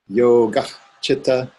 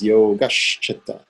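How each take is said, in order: First: The words are kept apart without a linking sound. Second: The first word ends in 'sh', linking into the next.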